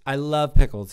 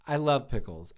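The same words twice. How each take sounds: First: "I love Pickles" with love pushed out much louder; a near-shouted repeat of the same words; loud insistence. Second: Said in the usual way. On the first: Shown as a demonstration. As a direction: declare it loudly so no one doubts.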